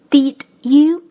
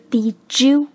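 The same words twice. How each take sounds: First: The d and you are said separately. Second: The d and you merge into one sound.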